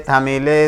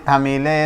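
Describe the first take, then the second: Both takes have the same delivery.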